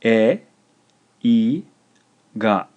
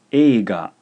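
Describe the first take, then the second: First: E, i and ga split by pauses; slow, emphatic dictation with gaps; syllable by syllable. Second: Said in the usual way. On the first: Shown as a demonstration. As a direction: dictate e, i, ga one clear syllable at a time. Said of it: "This is three syllables". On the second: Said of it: "and it's pronounced".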